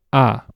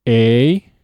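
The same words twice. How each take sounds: First: Spanish "A" short and open, no glide; "A" as a pure short Spanish ah; Spanish vowel A. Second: English "A" drawn out with a glide into ee; long gliding English "A"; "A" said the English way, loud and stretched; English vowel A. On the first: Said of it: "followed immediately by Spanish". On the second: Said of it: "say the vowel in English". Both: Shown as a demonstration.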